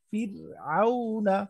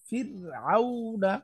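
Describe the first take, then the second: Both takes have the same delivery.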